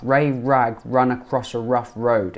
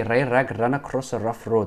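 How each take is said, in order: First: "Ray Rag ran" with rounded, untrilled R; smooth British R. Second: "Ray Rag ran" with tapped, trilled R; wrong R demo. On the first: Teacher showing the mouth shape, smooth untrilled R in "Ray Rag ran". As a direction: say every R in "rough road" smoothly, with no trill. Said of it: "Look at my mouth". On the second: Teacher showing what to avoid, "Ray Rag ran" with trilled R. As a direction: trill each R in "rough road" as a learner might. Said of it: "But don't say". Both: Shown as a demonstration.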